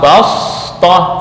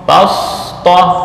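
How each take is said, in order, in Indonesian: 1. Bunyi s itu emfatik dan berat. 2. Bunyi s itu emfatik dan berat.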